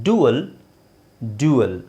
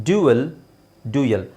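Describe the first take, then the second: No difference in how they are said.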